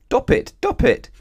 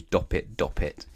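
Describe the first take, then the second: First: Very high, loud yelp; blocked-trunk cry. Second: Said in the usual way. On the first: A narrator's reading. Elephant with knotted trunk, crying out high and loud. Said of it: "cried the elephant, couldn't talk properly".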